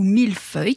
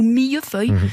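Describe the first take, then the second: First: The double L sounds like a plain L. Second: The double L sounds like a Y glide. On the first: The speaker calls it right. "on dit millésime ou millefeuille" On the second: The speaker calls it wrong. "qui devrait logiquement se dire"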